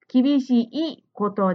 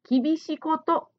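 First: The final 'i' of kibishii is clearly pronounced. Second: The final 'i' of kibishii is not clearly pronounced. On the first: The speaker calls it right. "いをしっかり発音しましょう" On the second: The speaker calls it wrong. "ジムさんは厳しいことと言っていました"

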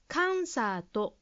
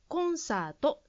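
First: The first vowel sounds like 'a'. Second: The first vowel sounds like 'o'. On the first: The speaker calls it wrong. "カンサートに聞こえました" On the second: The speaker calls it right. "和製英語のカタカナ言葉はコンサートです"

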